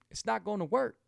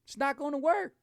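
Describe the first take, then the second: First: Said in the usual way. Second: Raised high, the warning repeated in a mock voice. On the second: Shown as a demonstration. Host warning viewers about cheating on keto, in a high mock voice. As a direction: pitch it up, playful warning. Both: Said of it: "I tell people".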